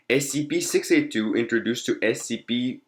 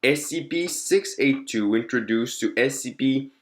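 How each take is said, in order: Both takes have the same delivery.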